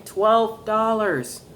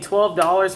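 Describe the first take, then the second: First: "Twelve dollars" drawn out very slowly and pitched high; emphatic repeat. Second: Said in the usual way. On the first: Real, not acted. Collector marvelling to viewers at a bargain, "Twelve dollars" slow and emphatic. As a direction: stretch both words of "Twelve dollars" to stress the price.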